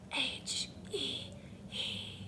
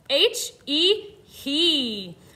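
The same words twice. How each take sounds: First: It is spelled in a whisper. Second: It is spelled in a normal voice. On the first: "Let's whisper spell it" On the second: "Let's spell it"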